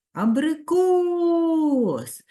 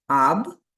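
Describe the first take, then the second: First: Абрикос drawn out very slowly, final кос pushed higher and louder; stressed syllable shown. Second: Аб-ри-кос said syllable by syllable, each part detached; split into syllables. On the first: Teacher showing third-graders the stressed syllable, slow and emphatic. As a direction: stretch Абрикос and lean hard on кос. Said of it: "Який же склад наголошений". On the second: Teacher showing pupils the syllables, spelled out in beats. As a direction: chop Аб-ри-кос into three clear beats. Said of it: "у слові стільки складів, скільки голосних звуків".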